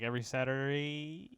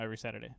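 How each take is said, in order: First: Saturday stretched long with a rising end; "Saturday" trailing into a long, rising final vowel; weird drawn-out Saturday. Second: Said in the usual way. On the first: Real, not acted. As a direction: drag out the end of "Saturday", sliding upward. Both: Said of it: "I said that in a weird way".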